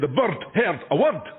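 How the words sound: It is spoken in a Scottish accent. The speaker calls it right. "And we say"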